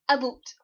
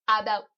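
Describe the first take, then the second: First: The second vowel sounds like 'boot'. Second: The second vowel sounds like 'out'. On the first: The speaker calls it wrong. "this is the one that is wrong. Super wrong" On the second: The speaker calls it right. "There's out in the word"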